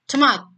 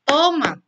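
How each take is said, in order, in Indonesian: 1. Kata ini dipadatkan menjadi satu suku kata. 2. Kata ini diucapkan dalam dua suku kata. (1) "serempet di satu kali" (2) "tomat itu kan berarti kan dua kali ya"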